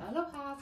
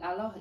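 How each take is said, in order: First: It is said in a put-on foreign accent. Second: It is said in a plain English accent.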